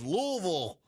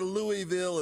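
First: The name is slurred, as if mouth full of marbles. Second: The name is said with every syllable clear. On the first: The speaker calls it right. "you got to sound like you got marbles in your mouth to correctly pronounce the city" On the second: The speaker calls it wrong. "It's not Louisville"

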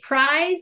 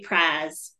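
First: The vowel is a full gliding diphthong. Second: The vowel is a flat single vowel. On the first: The speaker is from a younger, less Southern generation. "people are more likely to say prize" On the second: The speaker has a traditional Southern accent. "that is a really old cue to a Southern accent"

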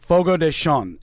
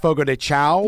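First: The last word sounds like 'shun'. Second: The last word sounds like 'chow'. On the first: The speaker calls it right. "it's actually pronounced more like Shun" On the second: The speaker calls it wrong. "This is commonly mispronounced as"

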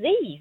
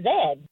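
First: The letter name is said the American way. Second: The letter name is said the British way. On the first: This is how the speaker's own country says it. "They don't even call them Z's" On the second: This is how the British say it. "They call them Z's"

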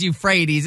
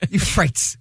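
First: It does not end with the sound 'rates'. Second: It starts with 'you' and ends with 'rates'. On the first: The speaker calls it right. "Of course it's Euphrates" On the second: The speaker calls it wrong. "Euphrates, because that's rates at the end, and the first part is you"

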